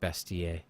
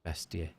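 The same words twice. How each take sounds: First: It is said in a French accent. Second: It is said in a French accent.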